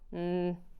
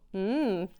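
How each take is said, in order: First: It is a quiet, unenthusiastic hum. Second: It is a moderately enthusiastic hum.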